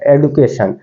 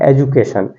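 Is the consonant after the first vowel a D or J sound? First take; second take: D sound; J sound. First: The second consonant is a plain D sound. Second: The second consonant is a J sound. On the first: The speaker calls it wrong. "ज़्यादातर teacher होते हैं इसको एडुकेशन बोलते हैं" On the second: The speaker calls it right. "इसका उच्चारण किया जाता है एजुकेशन"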